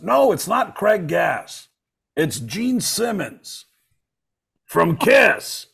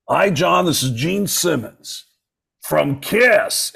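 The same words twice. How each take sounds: First: Very slow, high mock [name]; [name] impression. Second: Slow, higher mock [name]; [name] impression. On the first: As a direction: stretch every word like Gene. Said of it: "And he goes". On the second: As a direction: draw out the name like Gene. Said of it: "And he hears".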